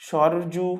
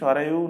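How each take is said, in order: First: The name is said with a 'j' sound. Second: The name is said with a 'y' sound.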